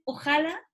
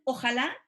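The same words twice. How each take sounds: First: "ojalá" pronounced as ÓJala, stress moved to the first syllable; first-syllable stress variant. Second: "ojalá" with the beat on the last syllable, LÁ; final-syllable stress. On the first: Asking students about how some people say it, "ojalá" stressed ÓJala. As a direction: say "ojalá" with the beat on "o". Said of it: "hay personas que dicen ojalá". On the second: Asking students about the other variant, "ojalá" stressed ojaLÁ. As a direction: say "ojalá" stressed at the end, rising as a question. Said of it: "Y otras que dicen ojalá". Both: Shown as a demonstration.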